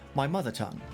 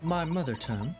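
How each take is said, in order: First: It is spoken in a British accent. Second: It is spoken in a Southern American accent. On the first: The speaker calls it right. "Forgot what a British accent was for a second" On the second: The speaker calls it wrong. "I've been using this fucking southern accent"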